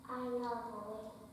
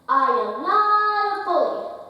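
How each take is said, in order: First: It is said quietly and timidly. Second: It is said loudly with conviction.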